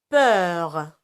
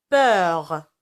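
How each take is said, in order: The two takes are said the same way.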